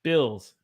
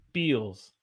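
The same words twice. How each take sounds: First: Said in the usual way. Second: "Bills" as "beels"; Southern "Bills", rhyming with eels; Southern held vowel. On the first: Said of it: "One has a ill". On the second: Shown as a demonstration. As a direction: stretch "Bills" with a long ee. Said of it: "One has a eel".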